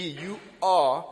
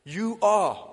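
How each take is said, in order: First: "you are" with a punched, held "are"; stress on ARE. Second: "You are" with a loud, falling "are"; stress on ARE. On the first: Preacher stressing "you are" for emphasis. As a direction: lean hard on "are" in "you are". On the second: Preacher showing emphasis to the congregation. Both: Shown as a demonstration. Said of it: "For emphasis".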